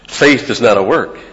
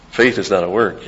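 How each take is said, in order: First: Louder, punching each word; firm preacher's proclamation; emphatic declaration. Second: Said in the usual way. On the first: Acted. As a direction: drive the point home to the congregation. Preacher repeats key line emphatically.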